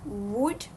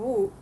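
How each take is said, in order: First: The final D sound is clearly pronounced. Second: The final D sound is dropped.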